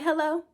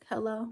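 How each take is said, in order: First: Higher, lilting phone greeting; caller's own hello. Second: Imitated man on phone. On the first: Retold or imitated. Answering the call from jail, higher questioning hello. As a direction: pick up with a high, questioning hello. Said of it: "I'm like". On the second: Imitating the jailed man answering, softer mock phone voice. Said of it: "He like".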